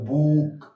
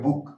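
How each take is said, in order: First: The vowel is drawn out long. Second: The vowel is said short and quick. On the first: The speaker calls it wrong. "ऐसे नहीं बहुत देर तक बोलते रहते" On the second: The speaker calls it right. "जल्दी बोल देते हैं"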